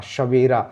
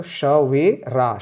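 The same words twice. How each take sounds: First: Said in the usual way. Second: Slow, श वे रा each said apart; syllable by syllable. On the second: Shown as a demonstration. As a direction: sound out श वे रा slowly. (अक्षर-अक्षर धीरे बोलकर) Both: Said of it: "रा पे मुंह खोलना है".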